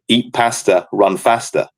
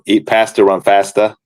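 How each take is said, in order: First: It is said in a northern English accent. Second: It is said in an American accent. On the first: The two words rhyme. The speaker calls it right. "with an accent from the north of England, where it rhymes" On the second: The two words do not rhyme. The speaker calls it wrong. "the American accent would be"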